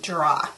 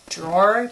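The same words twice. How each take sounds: First: "Drawer" said as "draw", no final r; low "Drawer" rhyming with "raw"; misspelt drawer. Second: "Drawer" with a clear final r; "Drawer" corrected, rising at the end. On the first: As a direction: drop the r at the end of "Drawer". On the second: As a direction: sound the r at the end of "Drawer", questioning. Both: Shown as a demonstration. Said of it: "maybe? That's what you mean?".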